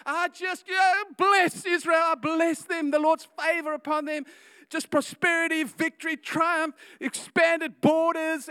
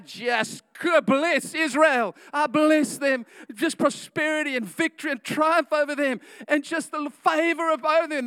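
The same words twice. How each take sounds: First: Going deeper and harder. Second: Mock prophetic blessing. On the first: Acted. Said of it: "he goes deep, he goes harder". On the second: Balaam blessing Israel instead.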